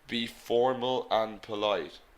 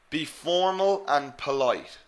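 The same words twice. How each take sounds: First: It is said in a flat, monotone voice. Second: It is said with lively, varied intonation.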